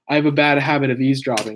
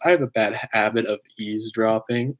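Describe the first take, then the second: First: The line is said in a casual way. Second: The line is said in a dramatic way.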